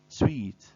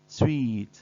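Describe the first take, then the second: Both takes have the same delivery.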